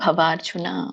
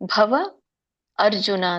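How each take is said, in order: First: The two words are merged into one. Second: The two words are said separately. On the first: "ಕೂಡಿ" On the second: "ಇದನ್ನ ಬಿಡಿಸಿದಾಗ"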